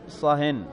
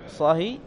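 First: صهن with a nunated kasra ending; with tanween. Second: صهي with a bare kasra; without tanween. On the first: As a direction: say صهن with -in at the end. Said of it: "ويجوز أن تقول". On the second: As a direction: say صهي ending in a short i, no n. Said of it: "أن تقول". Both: Shown as a demonstration.

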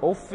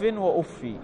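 First: أف with a nunated kasra; with tanween. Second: وأفي with a bare kasra on the f; without tanween. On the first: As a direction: say أف as uffin, doubled f and final n. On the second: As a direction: say وأفي as wa-uffi, no final n. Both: Shown as a demonstration. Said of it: "بقراءتين".

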